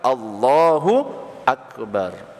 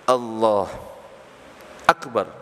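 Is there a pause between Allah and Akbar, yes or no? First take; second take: no; yes. First: The two words run together without a pause. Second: There is a brief pause between the two words. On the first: The speaker calls it right. "harus langsung" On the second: The speaker calls it wrong. "tidak berhenti antara dua kalimat sekalipun sebentar ... nggak boleh"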